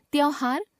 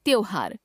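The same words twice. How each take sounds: First: त्योहार as "tyau-haar" with open au; mispronounced o. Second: Said in the usual way. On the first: Shown as a demonstration. Teacher showing a common error, त्योहार with au for o. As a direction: put "au" for "o" in त्योहार. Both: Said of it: "ओ, औ संबंधी अशुद्धियां".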